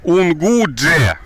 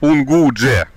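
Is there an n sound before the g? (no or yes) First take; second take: yes; yes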